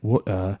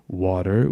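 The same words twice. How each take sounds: First: It is said with a British accent. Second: It is said with an American accent. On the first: "a British pronunciation in a way" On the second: "a little bit of an American uh, American pronunciation"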